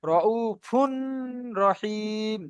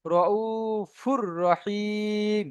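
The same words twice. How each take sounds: First: "রউফুন" with a long hummed n before "রহিম"; unmerged, nasal-held "রউফুন রহিম"; wrong nasal reading. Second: "রউফুর রহিম" with a doubled r and no hum; slow recited "রউফুর রহিম", n fully dropped; merged without ghunna. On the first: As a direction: hold the n of "রউফুন", then start "রহিম" separately. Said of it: "তাহলে কিন্তু ভুল পড়বো". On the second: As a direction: run "রউফুর" into "রহিম", long held vowels. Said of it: "এখানে আমরা পড়বো". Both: Shown as a demonstration.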